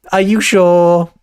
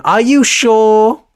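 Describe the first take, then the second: First: Said in the usual way. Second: Slow, higher, louder teasing ask; mock roadman voice. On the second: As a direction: drag out a cocky challenge. Teasing audience.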